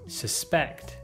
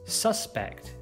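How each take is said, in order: First: The stress is on the second syllable. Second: The stress is on the first syllable. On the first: It is used as a verb. "you should stress the second syllable" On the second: It is used as a noun. "you should stress the first"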